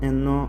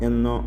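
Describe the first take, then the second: The two takes are said the same way.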